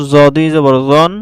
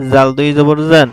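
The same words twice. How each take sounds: First: "জন" said with a full, dark o; heavy ظ sound, "জন" rounded like o; heavy letter with tanween. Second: "জান" said with a thin, open a; light ذ sound, "জান" with a clear a; light letter with tanween. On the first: (মোটা স্বরে "জন") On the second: (পাতলা স্বরে "জান") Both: Shown as a demonstration. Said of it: "তানবিনের মাধ্যমে হরফের উচ্চারণের পার্থক্য".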